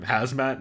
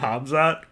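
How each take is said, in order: First: The z sound comes before the m sound. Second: The m sound comes before the z sound. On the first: The speaker calls it wrong. "we've been calling him Hazmat" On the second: The speaker calls it right. "his actual name Hamzat"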